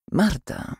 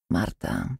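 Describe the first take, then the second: First: Higher, falling name; coaxing prompt. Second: Low, soft name; gentle prompting. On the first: Repeated prompt to silent girl. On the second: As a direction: offer the name quietly and low. Nurse names the silent girl. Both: A narrator's reading.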